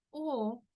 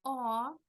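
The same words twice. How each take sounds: First: O closed and rounded, held; closed O, as in Spanish. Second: O more open, drawn out like "aw". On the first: Teacher compares vowel with Spanish, closed O. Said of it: "es como el sonido en español". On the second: Teacher explains the more open sound, open O. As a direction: open throat and mouth for a long O. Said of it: "más abierto". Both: Shown as a demonstration.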